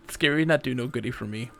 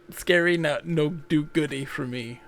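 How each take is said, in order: First: Said in the usual way. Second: Put-on slow, babyish silly voice; cutesy broken English. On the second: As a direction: play a scared cartoon creature.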